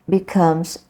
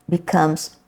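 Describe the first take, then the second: The two takes are said the same way.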